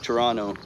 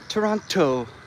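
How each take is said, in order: First: The T before the last vowel is dropped. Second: The T before the last vowel is clearly pronounced. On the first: This is how locals say it. "we don't say the T at the end. We just say like Toronto" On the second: This is the formal announcement style. "Then you only hear it in the airport"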